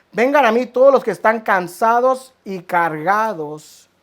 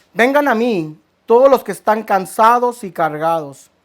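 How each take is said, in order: Both takes have the same delivery.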